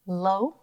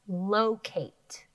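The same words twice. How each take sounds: First: "Locate" said slowly, lingering on the open "lo"; stretched open syllable. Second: Said in the usual way. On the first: Shown as a demonstration. Teacher to students, "Locate" stretched on "lo". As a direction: draw out the first syllable "Lo" of "Locate". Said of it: "I hear that open vowel sound". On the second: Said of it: "Last one".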